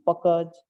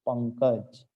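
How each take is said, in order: First: पकज said without the nasal, as written; misspelt form read out. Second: पंकज with a clear nasal before क; correct pronunciation. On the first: Teacher reads the written mistake पकज. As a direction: read पकज flat, no न sound. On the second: Teacher models the correct पंकज for children. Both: Shown as a demonstration. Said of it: "सही उच्चारण क्या होता है इसका?".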